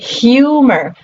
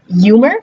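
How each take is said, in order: First: It is said with the modern pronunciation. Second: It is said with the older pronunciation. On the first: This is how the word is said today. "and now we say" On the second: This is how the word was said in the past. "We used to say uh"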